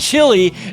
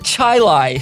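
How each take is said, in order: First: The word ends with an 'ee' sound. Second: The word ends with an 'eye' sound. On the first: It is the ordinary food word. "It's the word chili" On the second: It is how the town's locals say it. "they pronounce it Chilai"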